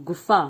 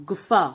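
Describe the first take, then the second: The two takes are said the same way.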